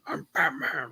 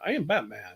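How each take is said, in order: First: It is said in an angry, gruff voice. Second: It is said in a plain normal voice.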